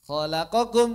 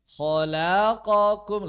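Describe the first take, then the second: First: The syllables are rushed faster than normal. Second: The syllables are drawn out more slowly than normal. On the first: "lebih cepat" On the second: "lebih lambat"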